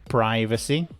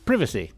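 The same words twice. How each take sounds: First: It is said with an American pronunciation. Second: It is said with a British pronunciation.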